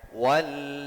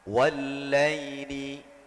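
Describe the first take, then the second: First: The word stops on the final consonant. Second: The word ends with the full -ni ending. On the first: The reader stops at this word. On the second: The reader continues without stopping.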